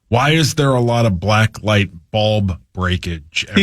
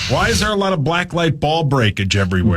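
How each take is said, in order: First: The line is said at a slower pace. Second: The line is said at a faster pace.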